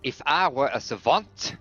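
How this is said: It is spoken with a put-on French accent. "I'm going to be French with my accent"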